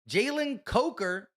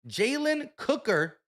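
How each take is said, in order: First: The surname is said like coker. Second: The surname is said like cooker. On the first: The speaker calls it right. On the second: The speaker calls it wrong.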